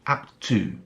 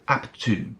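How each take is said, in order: First: The two words run together as one. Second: The same.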